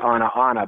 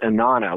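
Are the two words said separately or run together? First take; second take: separately; run together. First: Both words are said fully and separately. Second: The middle vowel drops, joining the words together. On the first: "when I look on the page, I see Anna, Anna" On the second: "the middle ah sound drops and it becomes Inanna"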